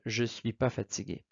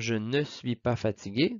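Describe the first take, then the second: First: The word 'ne' is left out. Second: The word 'ne' is clearly pronounced. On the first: It is informal speech. "à l'oral, en contexte plus informel" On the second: It is formal speech. "dans un contexte formel"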